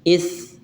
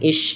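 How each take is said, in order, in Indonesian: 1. Konsonan ini adalah desis mirip th yang lembut. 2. Konsonan ini adalah bunyi desis sh. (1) "ujung lidahnya menempel dengan gigi atas" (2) "tidak dibaca dengan ish gitu ya"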